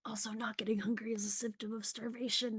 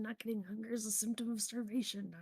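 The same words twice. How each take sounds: First: Whispered. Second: Said in the usual way. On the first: Shown as a demonstration. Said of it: "repeated plainly".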